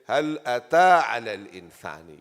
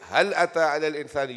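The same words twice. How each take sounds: First: The stress is on أتى. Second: The stress is on هل.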